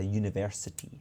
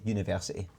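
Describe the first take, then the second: First: "university" with every syllable enunciated; imitating a fully enunciated "university". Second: "University" in loose Scottish pronunciation; casual Scottish "University" with softened consonants; unenunciated university. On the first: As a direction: spell out "university" crisply, syllable by syllable. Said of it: "you enunciate in a university". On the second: Shown as a demonstration. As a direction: run "University" together without enunciating. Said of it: "I don't enunciate because we".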